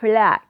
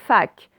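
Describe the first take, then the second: First: The word starts with F followed by L. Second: The word starts with F, without L. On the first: The speaker calls it right. "c'est flac" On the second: The speaker calls it wrong. "C'est pas fac"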